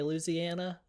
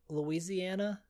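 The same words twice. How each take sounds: First: It is said with the Southern, letter-dropping pronunciation. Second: It is said with the standard full pronunciation. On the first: "people say Louisiana" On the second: "I would say Louisiana"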